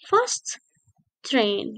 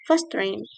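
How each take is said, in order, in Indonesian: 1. Dua bunyi t diucapkan terpisah. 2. Dua bunyi t menyatu menjadi satu. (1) "it's not fast train" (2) "biasanya native speaker akan bilang begini"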